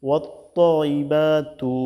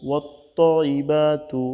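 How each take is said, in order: Both takes have the same delivery.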